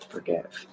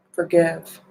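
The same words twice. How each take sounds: First: Forgive dropped to a near whisper, much softer; hushed forgive. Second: Said in the usual way. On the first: Shown as a demonstration. Reader repeating her affirmation to viewers, softly hushed. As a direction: let Forgive fade almost to nothing.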